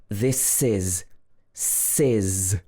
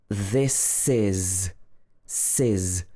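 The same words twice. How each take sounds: No difference in how they are said.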